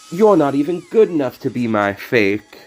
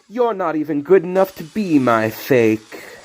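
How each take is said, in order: First: The word good is stressed. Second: The word good gets no special stress. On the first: The speaker calls it right. "He puts the emphasis on good" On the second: The speaker calls it wrong. "I didn't quite"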